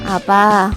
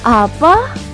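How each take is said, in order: First: The word is said in a lazy voice. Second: The word is said in a hopeful voice.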